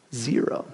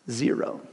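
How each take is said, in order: First: Soft, much quieter repeat with a rise; sheepish admission. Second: A soft, much quieter confession; sheepish admission. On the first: Pastor confessing to the congregation, soft rising repeat. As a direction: say it again, half asking. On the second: Pastor confessing to the congregation, soft sheepish admission. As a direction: drop the voice, embarrassed. Admitting no devotionals read. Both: Real, not acted.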